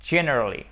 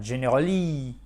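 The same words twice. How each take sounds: First: "generally" as "JEN-erally", punched at the start; "generally" with a strong opening JEN and light ending; stress on first syllable. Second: French-style "generally", landing on a long final "LEE"; misplaced stress. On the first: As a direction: hit the first syllable of "generally", let the rest fall. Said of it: "l'accent tonique sur la première syllabe du mot". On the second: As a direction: say "generally" wrongly as "jeneraLEE". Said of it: "Si vous ne mettez pas l'accent tonique sur la première syllabe". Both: Shown as a demonstration.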